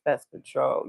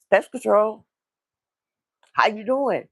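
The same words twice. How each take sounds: First: Low, subdued imitation of a sad caller. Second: Upbeat, higher cheery greeting; all happy. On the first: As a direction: mumble it softly, downcast. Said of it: "he looked just so sad". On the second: Retold or imitated. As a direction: announce yourself brightly at the door. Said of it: "No, he'd be all happy".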